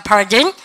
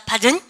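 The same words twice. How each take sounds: First: "Pardon" louder, with the middle R pronounced; American R. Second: "Pardon" said with no middle R, rising; British, no R. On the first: Teacher models American asking again, "Pardon" with R. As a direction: curl the R in "Pardon", ending up. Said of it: "그렇게 R 발음 하면 돼요". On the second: Teacher models British asking again, "Pardon" without R. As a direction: leave the R out of "Pardon". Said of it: "영국 애들은 중간에 있는 R 발음을 안". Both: Shown as a demonstration.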